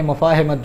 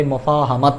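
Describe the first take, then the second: First: مفاہمت said as mu-faa-HIM-mat, short i in the third syllable; مفاہمت mispronounced with an i after the h; wrong pronunciation. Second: مفاہمت said as mu-faa-ha-mat, with u first and a after the h; مفاہمت with the correct a vowel after the h; correct pronunciation. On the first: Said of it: "جو کہ غلط ہے". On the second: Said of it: "اصل میں یہ لفظ ہے". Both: Shown as a demonstration.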